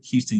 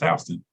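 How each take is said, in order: First: It is said the way the Texas city is. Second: It is said the way the Georgia county is. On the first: This is how the Texas city is named. The speaker calls it wrong. "No, you don't say that" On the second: This is how the local county is named. The speaker calls it right. "It's it's pronounced Houston"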